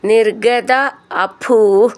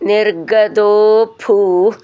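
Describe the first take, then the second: First: The two words are said separately. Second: The words are joined with a long o.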